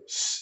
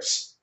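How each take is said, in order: First: The hiss is followed by an added uh vowel. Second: The hiss is only air with no vowel. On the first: The speaker calls it wrong. "it shouldn't be a, a s, uh, no uh sound" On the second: The speaker calls it right. "It's just air"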